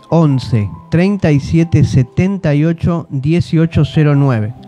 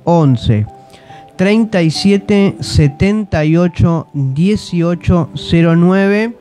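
First: The number is said at normal speed. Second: The number is said more slowly.

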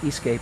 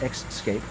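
First: The word begins with a plain 'es' sound. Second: The word begins with an added 'ex' sound. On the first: The speaker calls it right. "Notice I said escape" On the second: The speaker calls it wrong. "and not escape"

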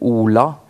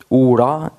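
First: The L is a thin, clear sound. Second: The L is a thick, flapped sound. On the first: "Du hör tunn L" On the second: "Tjuk L"

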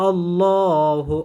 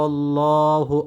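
The two takes are said the same way.

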